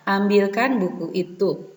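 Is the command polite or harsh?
polite. It is said politely, in a gentle tone.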